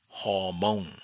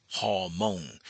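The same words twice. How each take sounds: The two takes are said the same way.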